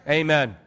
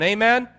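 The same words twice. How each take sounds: First: Said in the usual way. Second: "Amen" with rising pitch, as a question; higher, rising "Amen". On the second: Real, not acted. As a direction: lift the end of "Amen" to invite a reply. Asks congregation for response.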